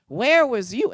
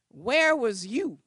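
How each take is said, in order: First: Much louder, shouted accusation; furious shout. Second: Accusing question. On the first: Tenant shouting at the lawyer, louder still. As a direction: yell it at her with full force. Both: Retold or imitated. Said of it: "She reamed me a new one".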